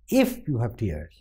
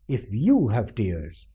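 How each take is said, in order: First: The stress falls on the word if. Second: The stress falls on the word you. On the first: "Now the stress goes to if" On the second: "The stress was on you"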